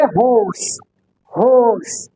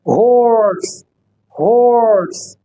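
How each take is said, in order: First: हॉर्स with no r sound; British horse. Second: हॉर्स with the r curled, slow; American horse. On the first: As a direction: drop the r in हॉर्स. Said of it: "British के अंदर इसको नहीं बोला जाता". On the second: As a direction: curl the tongue for the r in हॉर्स. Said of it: "American आर को represent करेगा". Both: Shown as a demonstration.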